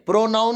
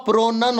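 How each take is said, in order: First: प्रोनाउन with "noun" in it; "ow" vowel in प्रोनाउन; wrong pronunciation. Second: प्रोनन with short "nun"; short vowel in second syllable of प्रोनन; correct pronunciation. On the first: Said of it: "प्रोनाउन नहीं होता". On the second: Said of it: "प्रोनन होता". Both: Shown as a demonstration.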